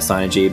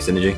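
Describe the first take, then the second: First: It begins with 'sigh', like psi energy. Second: It begins with 'sin', like ordinary synergy. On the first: The word is heard as psychic energy. "I say it synergy because I like to say it that way" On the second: This is the common way people say it. "most people just say synergy"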